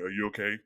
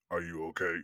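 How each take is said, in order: First: Lightly lowered deep-voiced imitation; hint of the actor's deep voice. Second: Lower, softer imitation of a deep-voiced actor. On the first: Repeating the actor's question to the listeners, lightly deep. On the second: Imitating the actor asking the frozen fan if he's okay, low and soft. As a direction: drop low like Tony Todd. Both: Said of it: "'cause he has a really deep voice".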